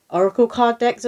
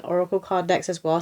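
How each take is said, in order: First: Louder, higher, catching the slip; blurted correction. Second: Said in the usual way. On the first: Real, not acted. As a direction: push the words out over the wrong one. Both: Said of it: "I was about to say arrow".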